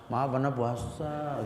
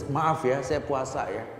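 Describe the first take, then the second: First: Slow, meek little apology; weak apology. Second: Steady, firm polite refusal; firm reply. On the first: Preacher showing the wrong, timid reply to a provoker, slow and meek. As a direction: shrink back as you say it. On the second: Preacher showing the right, firm reply to a provoker. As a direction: hold your ground politely. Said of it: "Yang tegas". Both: Shown as a demonstration.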